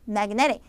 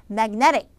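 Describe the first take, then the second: No difference in how they are said.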